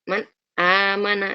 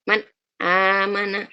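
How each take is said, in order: The two takes are said the same way.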